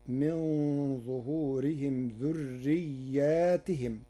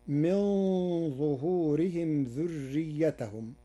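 First: ذرياتهم with long a "dhurriyyatihim"; Warsh reading. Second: ذريتهم as "dhurriyyatahum"; Hafs reading. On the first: Sheikh demonstrating Warsh's plural ذرياتهم slowly. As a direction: stretch the alif in ذرياتهم. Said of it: "فتصير". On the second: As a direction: recite ذريتهم without alif. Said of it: "قرأ ورش كلمة ذريتهم". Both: Shown as a demonstration.

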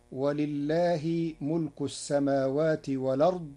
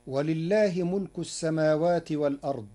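First: والأرض as walard, hamza dropped; Warsh reading. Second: Said in the usual way. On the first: Shown as a demonstration. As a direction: carry the hamza's vowel onto the lam in والأرض. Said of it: "بنقل حركة الهمز إلى الساكن قبله". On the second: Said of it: "قرأ ورش كلمة والأرض".

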